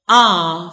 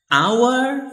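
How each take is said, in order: First: The word is said reduced with a shorter vowel. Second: The word is said fully with a clear vowel. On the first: "for the weak" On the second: "for the strong"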